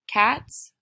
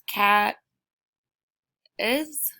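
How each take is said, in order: First: The word ends with a hissing s sound. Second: The word ends with an extra iz syllable. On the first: The speaker calls it right. "That sounds correct" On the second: The speaker calls it wrong. "No, that doesn't sound right"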